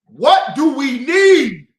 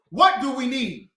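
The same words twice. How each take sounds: First: Demanding shout. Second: Said in the usual way. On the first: Real, not acted. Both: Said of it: "I can never get the damn answer".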